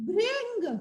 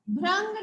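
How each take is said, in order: First: भृंग with a short "ri" after bh, "bhring"; correct pronunciation. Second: भृंग said with "ra", as "bhrang"; mispronunciation. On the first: Teacher modelling the word for pupils, भृंग said "bhring". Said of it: "भृंग नहीं, इसे हम कहेंगे". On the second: Teacher showing pupils what to avoid, भृंग said "bhrang". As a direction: swap the "ri" in भृंग for "ra". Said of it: "भृंग नहीं". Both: Shown as a demonstration.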